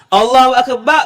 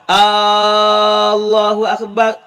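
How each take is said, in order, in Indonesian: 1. Vokal pertama itu pendek. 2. Vokal pertama itu dibaca panjang. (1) "makna dia Allah itu maha besar hak sungguh" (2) "makna dia tukar jadi adakah Tuhan itu maha besar?"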